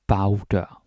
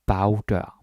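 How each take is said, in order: Both takes have the same delivery.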